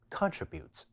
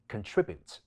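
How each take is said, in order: First: The stress is on the first syllable. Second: The stress is on the second syllable. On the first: "英式發音亦可以將重音放喺第一音節" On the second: "將重音放喺第二音節"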